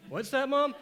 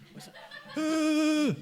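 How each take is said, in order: First: Gasp, then a high rising plea; frightened kid asking mom; breathless high question, rising. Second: High, alarmed question, falling at the end; sudden high alarm; startled question. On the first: Kid asks mom, gasping. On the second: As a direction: blurt it out as the car speeds up. Kid noticing brakes failing. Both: Retold or imitated.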